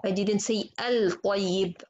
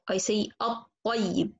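First: Al-tayyib with a clear l before the t; wrong lam pronounced. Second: At-tayyib said slowly, the l silent and the t doubled; correct merged lam. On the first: Teacher showing the wrong al-tayyib, slow and deliberate. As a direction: slowly voice the l in al-tayyib as the wrong form. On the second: Teacher modelling the right at-tayyib, slow and careful. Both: Shown as a demonstration.

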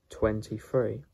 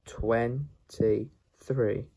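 First: Said in the usual way. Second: "twenty-three" slowly, in separate pieces; syllable by syllable. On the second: Shown as a demonstration. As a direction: sound out "twenty-three" with gaps between syllables. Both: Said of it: "How to pronounce the number".

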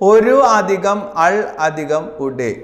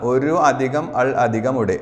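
First: Drawn out word by word; slow dictation. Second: Said in the usual way. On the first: Shown as a demonstration. Teacher to exam students, slowly dictating the answer. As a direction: spell each part out slowly for the class. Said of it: "teacher dictates the correct answer". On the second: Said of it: "quick restatement of the answer".

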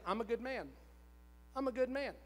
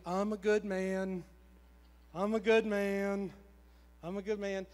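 First: Brisker, mildly assured retold affirmation; growing conviction. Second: Awkward self-affirmation. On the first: Husband starting to accept his wife's praise, more convinced. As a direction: say it as if starting to believe it. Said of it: "'Cause I just knew it". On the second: Retold or imitated. Husband made to say it by his wife, awkward recital. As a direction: force it out stiffly, imitating reluctant compliance. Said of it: "I felt really dumb and really weird".

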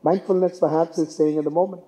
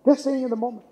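First: Said in the usual way. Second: Just lifted high, staying in the moment said softly after it; stress on just. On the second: Shown as a demonstration. Speaker stresses Just to the audience while restating his point. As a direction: lean up on Just and let the rest drop. Restates key idea for emphasis.

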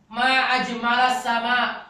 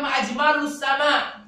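First: Slow "Ma ajmalas sama" with a final a on ajmalas; correct fathah reading. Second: "ajmalus" with a final u, said higher and louder; wrong dammah reading. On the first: Shown as a demonstration. Teacher quoting the correct form to class, slowly. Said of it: "putrinya berkata apa". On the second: Retold or imitated. Teacher imitating the daughter's wrong reading, louder. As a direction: stress the u in "ajmalus".

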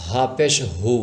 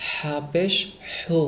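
First: হা and হু from a relaxed, open throat. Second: Slow হা and হু, air pushed from the throat; airy throat হা. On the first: Teacher contrasts two letters, হা with throat let go. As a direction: release the h of হু freely, unsqueezed. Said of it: "উচ্চারণ করতে হবে গলা ছেড়ে". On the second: Teacher demonstrates air from throat, slow breathy হা. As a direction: stretch a whispery, constricted h into হু. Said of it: "গলা দিয়ে বের করতে হবে এভাবে". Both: Shown as a demonstration.

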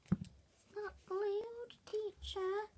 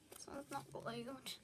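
First: High, drawn-out mock pupil complaint; slow, high-pitched mocking tattle; tattling pupil. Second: Said in the usual way. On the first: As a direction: mimic a child telling on someone to the teacher. Mimics pupil telling the teacher.

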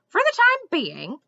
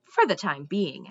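First: High, loud, incredulous echo; indignant. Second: Said in the usual way. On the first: A narrator's reading. Squirrel repeating Mendenbar's answer back, indignantly. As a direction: throw it back as an outraged question. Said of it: "the squirrel said indignantly".

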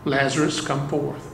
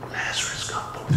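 First: A commanding call, not actually raised; loud command. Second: Soft unvoiced whisper. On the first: Retold or imitated. Preacher voicing Jesus calling Lazarus from the tomb, understated command. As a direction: call Lazarus out with quiet authority. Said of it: "Jesus commanded in a loud voice". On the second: Preacher imagining Jesus quietly calling Lazarus, whispered. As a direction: breathe it, barely audible. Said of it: "Jesus could have said".

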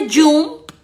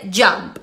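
First: "jump" with an oo vowel, as spelt in Spanish; wrong pronunciation. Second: "jump" with an open "ah"-like vowel, drawn out; correct pronunciation. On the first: Teacher showing learners what not to say, mispronounced. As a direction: say "jump" as "joomp", pitched up. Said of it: "No se dice jump". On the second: Teacher modelling the word for learners, correctly pronounced. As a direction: say "jump" slowly as "djamp". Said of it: "se dice jump". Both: Shown as a demonstration.

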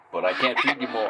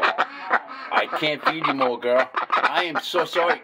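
First: Said in the usual way. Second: Slow it right down and tell her kindly; slow, gentle refusal. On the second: Real, not acted. Owner gently telling his duck no more food, slowly.

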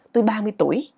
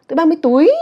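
First: Said in the usual way. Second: High, loud "tuổi" swooping up; exaggerated rising ending. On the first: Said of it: "thì ví dụ mình nói". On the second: Shown as a demonstration. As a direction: push "tuổi" up like a loud question. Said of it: "Chứ mình đâu nói là". ("tuổi" vút cao, thật to)

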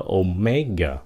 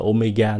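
First: "Omega" as oh-MEG-uh, end falling; correct falling stress. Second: "Omega" with the last syllable held up; wrong stress. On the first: Teacher corrects the mistake, falling "Omega". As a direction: stress the middle of "Omega", drop the last. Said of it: "nó là Omega". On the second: Teacher shows what to avoid, unfallen "Omega". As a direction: say "Omega" as oh-may-GA. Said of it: "Không phải là Omega". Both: Shown as a demonstration.

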